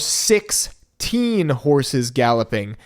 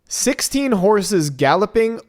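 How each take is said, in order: First: Six and teen are said as separate words. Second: Sixteen is said as one number word. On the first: There are six young horses. "we love us some equine teens, so the latter" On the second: There are sixteen horses. "the number sixteen that comes after fifteen"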